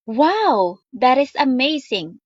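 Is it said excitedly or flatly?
excitedly. It is said with excited, strong emotion.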